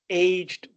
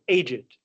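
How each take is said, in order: First: The word is said with one syllable. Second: The word is said with two syllables. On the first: It means having grown old over time. "If you don't pronounce the E" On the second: It means old. "you have to pronounce the E"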